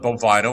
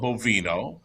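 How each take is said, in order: First: The word is said with an English pronunciation. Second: The word is said with an Italian pronunciation. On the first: This is how the other person says it. "you call it bovino" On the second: This is how the speaker says it. "I just use the Italian pronunciation"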